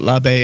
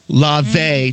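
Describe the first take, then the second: First: It is said the way Americans pronounce it. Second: It is said the Greek way, almost French-sounding. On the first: The speaker calls it wrong. "not Labe" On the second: The speaker calls it right. "it's actually pronounced more like Moulin Labe. ... It's almost French"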